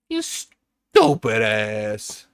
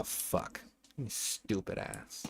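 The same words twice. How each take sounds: First: Very slow and louder, stretching each word; drawn-out mock insult. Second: Slow whispered insult under the breath; whispered curse. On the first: Streamer scolding himself over a build mistake, slow and loud. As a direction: savour every word of the insult. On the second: Real, not acted. Streamer muttering at his own mistake, whispered. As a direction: hiss it to yourself.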